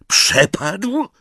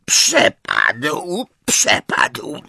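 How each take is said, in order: First: Higher, rising in shock; can't believe what he heard; disbelieving echo. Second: High, wailing elf voice; a miserable little elf, pitched high; whining house-elf. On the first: Harry echoes in disbelief. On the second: Elf admits the locket is gone. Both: A narrator's reading.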